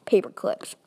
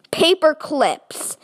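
First: Said in the usual way. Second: "Paper clips" high, loud and drawn out, falling at the end; incredulous repeat. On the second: Acted. Robber finding the vault's contents, "Paper clips" said slowly, high and incredulous. Repeats the disappointing reveal in disbelief.

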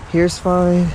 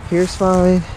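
The two takes are said the same way.

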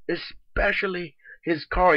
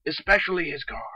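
First: "Especially his car" drawn out slowly, weight on "car"; slow emphatic repeat. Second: Said in the usual way. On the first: Real, not acted. Repeating the gripe about his car, slow and emphatic. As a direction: lean on "car", slowing right down.

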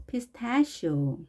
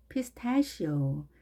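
First: Pistachio drawn out slowly, shi sound clear; slow model read. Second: Said in the usual way. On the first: Shown as a demonstration. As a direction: stretch Pistachio out syllable by syllable. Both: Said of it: "쉬 발음이".

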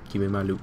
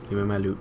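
The two takes are said the same way.

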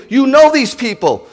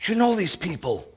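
First: Higher, louder fervent plea; fervent plea to God, raised; loud pleading preaching. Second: Much softer, hushed plea; soft aside after the shouted plea; quiet tender echo. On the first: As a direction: cry it out to God. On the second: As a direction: drop to a near-hush for God. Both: Acted.

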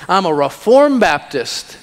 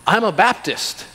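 First: Mock pride, leaning on "reformed"; more refined smug believer. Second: Lightly mocking, a bit higher, proud Baptist; self-satisfied churchgoer. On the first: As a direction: puff up a little more on "reformed". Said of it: "let's get a little more refined". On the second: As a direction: play a smug believer lightly. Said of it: "you can get more refined".

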